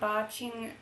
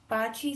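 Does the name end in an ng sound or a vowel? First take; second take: ng sound; vowel. First: The name ends with an ng sound. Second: The name ends with a plain vowel. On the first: The speaker calls it wrong. "I keep saying Baching instead of Bachi" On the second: The speaker calls it right. "instead of Bachi"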